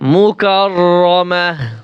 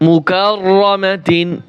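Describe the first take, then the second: First: The word ends in a soft h sound. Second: The word ends in a t sound plus -in. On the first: The reading stops on this word. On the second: The reading continues without stopping on the word.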